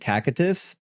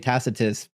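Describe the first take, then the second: First: The middle C is a hard K sound. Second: The middle C is a soft S sound. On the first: This is the original pronunciation. "the correct p- pronunciation of Tacitus is actually Tacitus" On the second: This is the usual Western pronunciation. "we just say Tacitus because we soften the C"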